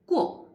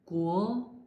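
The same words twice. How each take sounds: First: It is said with the fourth tone. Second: It is said with the second tone. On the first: "fourth tongue" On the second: "second tongue"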